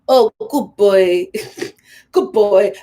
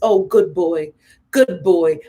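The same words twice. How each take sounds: First: It is said in an imitation of her voice. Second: It is said in the speaker's natural voice.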